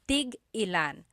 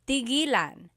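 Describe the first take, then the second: First: A glottal stop breaks the word in the middle. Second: The word flows smoothly without a glottal stop. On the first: How many of each. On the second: To stop.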